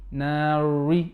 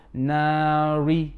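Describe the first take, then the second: No difference in how they are said.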